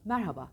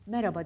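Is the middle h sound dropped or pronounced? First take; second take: pronounced; dropped. First: The middle h sound is clearly pronounced. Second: The middle h sound is swallowed. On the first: The speaker calls it right. "Ortadaki H'yi yutmayın" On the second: The speaker calls it wrong. "Merhaba değil"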